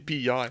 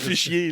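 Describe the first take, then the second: First: It begins with a p sound, like pis hier. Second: It begins with an f sound, like fichier. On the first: The speaker calls it right. "Mais non, c'est pis hier" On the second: The speaker calls it wrong. "J'ai appelé Fisher pendant des années"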